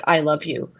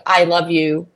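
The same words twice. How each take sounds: First: "I love you" softer and lower, romantic. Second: Said in the usual way. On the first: Shown as a demonstration. To friends, contrasting romantic I love you, tender. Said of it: "than a romantic". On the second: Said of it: "a saying".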